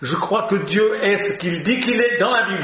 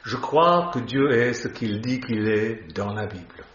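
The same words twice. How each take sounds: First: It is said at a quicker pace. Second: It is said at a slower pace.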